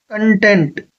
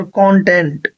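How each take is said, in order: First: कंटेंट said with stress on the second syllable, con-TENT; first pronunciation. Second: कंटेंट said slowly with stress on the first syllable, CON-tent; second pronunciation. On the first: Teacher demonstrating कंटेंट as con-TENT to students. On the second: Teacher demonstrating कंटेंट as CON-tent, slowly. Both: Shown as a demonstration. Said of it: "इसको मैं दोनों तरीके से pronounce कर सकता हूँ".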